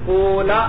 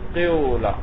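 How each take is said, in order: First: The first vowel is a long u sound. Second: The first vowel is i tinged with u. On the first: "वाव को साकिन कर दो" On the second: "कसरे के साथ थोड़ी सी जम्मे की बू देनी है"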